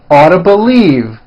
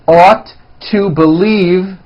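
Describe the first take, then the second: First: The words are squeezed into a reduced form. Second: Each word is said fully and separately.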